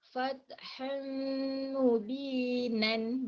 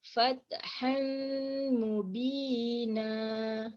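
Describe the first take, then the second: First: The phrase ends with a final n sound. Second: The phrase ends on a long vowel. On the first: The reading continues into the next word. "bacaan dia kalau kita teruskan" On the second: The reading stops at this word. "kalau kita wakaf ataupun kita berhenti"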